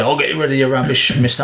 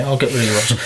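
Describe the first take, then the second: First: Overdone tradesman voice. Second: Corrected tradesman voice. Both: Retold or imitated. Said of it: "Oh, no, they don't talk like that".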